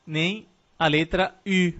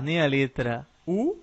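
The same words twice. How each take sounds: First: U said as French u, slow with rounded lips; French u, rounded front vowel; French u sound. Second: Said in the usual way. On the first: Shown as a demonstration. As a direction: say U the French way, pouted. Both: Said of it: "Agora você já sabe pronunciar".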